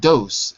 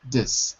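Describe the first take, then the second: First: The vowel is a full 'oh' sound. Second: The vowel is a weak 'uh' sound. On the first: The speaker calls it wrong. "It's not dose" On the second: The speaker calls it right. "It's this"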